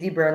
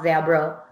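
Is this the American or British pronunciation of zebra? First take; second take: American; British. First: It is said in the American way. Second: It is said in the British way. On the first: "in U.S. English, we say zebra" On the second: "not zebra"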